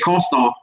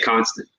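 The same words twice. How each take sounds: First: It uses the local Thibodaux pronunciation. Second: It uses a general, non-local pronunciation. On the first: This is how people locally understand it. "You're gonna have to say constant. If you don't say constant in Thibodeau" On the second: This is for listeners from elsewhere. "if you're talking to somebody in another state, then you say constant"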